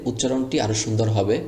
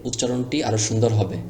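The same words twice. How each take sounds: No difference in how they are said.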